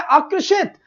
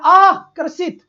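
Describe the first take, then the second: First: "आकर्षित" run together as one word, SH in षित; correct pronunciation. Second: "आकर्षित" broken after a long आ, ending in plain S, "aa... karsit"; mispronunciation demo. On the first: Teacher showing how we say it, "आकर्षित" joined with a clear SH. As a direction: say "आकर्षित" unbroken, "aakarshit", ending lifted. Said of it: "कैसे बोलते हैं?". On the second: Teacher mocking how nobody says it, "आकर्षित" broken as "aa... karsit". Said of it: "क्या हम ऐसे थोड़ी ना बोलते हैं". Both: Shown as a demonstration.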